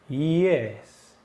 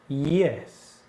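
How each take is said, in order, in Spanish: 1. La entonación baja en la palabra. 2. La entonación baja en la palabra.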